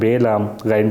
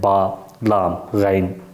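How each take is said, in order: First: The first letter name is said as 'bay'. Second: The first letter name is said as 'baa'. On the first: This is the Urdu way of naming the letters. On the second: This is the Arabic way of naming the letters.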